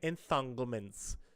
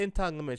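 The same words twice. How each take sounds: First: The word is said with an added breathy H sound. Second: The word is said plainly with no added breathiness. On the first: "She she put that H in there" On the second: "she didn't even just say entanglements"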